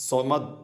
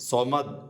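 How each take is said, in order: Both takes have the same delivery.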